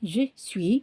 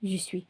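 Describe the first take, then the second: First: Both words are pronounced fully and separately. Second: The first word is swallowed into the second. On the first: This is the form it actually has. "ஸோ இட்ஸ் ஆக்சுவலாக" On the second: This is how people say it in everyday speech. "Spoken ஃபார்மில் இப்போ போடும்போது ப்ரொனன்சியேஷன்"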